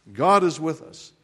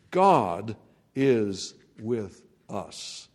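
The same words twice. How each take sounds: First: Said in the usual way. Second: Very slow, drawn-out "God is with us"; slow emphasis. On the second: Acted. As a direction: lean on "God" and stretch "God is with us". Distinctive difference line, slowed.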